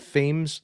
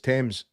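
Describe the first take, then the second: First: The name is said the American way. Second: The name is said the English way. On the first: The speaker calls it wrong. "That's how it's getting pronounced. That might be how he pronounces it because he's American" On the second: The speaker calls it right. "because that's fucking proper English"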